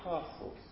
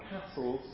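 First: The first vowel is long, as in southern British. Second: The first vowel is short, as in northern English. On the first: "rather than castles" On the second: "I talk about castles ... that's the way people in the north speak"

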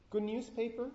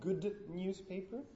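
First: The final d of 'good' assimilates toward n. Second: The final d of 'good' is kept as d. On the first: The speaker calls it right. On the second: The speaker calls it wrong.

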